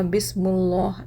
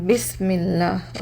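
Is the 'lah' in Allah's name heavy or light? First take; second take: heavy; light. First: The 'lah' is heavy, with a rounded o-like vowel. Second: The 'lah' is light, with a thin a-like vowel. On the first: The speaker calls it wrong. "मोटा कैसे पढ़ेंगे? ... जिसमें ओ का साउंड आता" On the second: The speaker calls it right. "यहाँ पे मुझे बारीक पढ़ना है"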